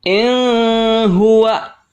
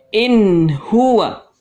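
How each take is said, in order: First: The n sound is blurred before h. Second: The n sound is pronounced clearly before h. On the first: The speaker calls it wrong. "Jangan sekali-kali dibaca in huwa. Salah" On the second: The speaker calls it right. "Maka dibaca jelas"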